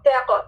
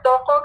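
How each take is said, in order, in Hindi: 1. t ध्वनि हल्की और पतली है। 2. t ध्वनि भारी और मोटी है।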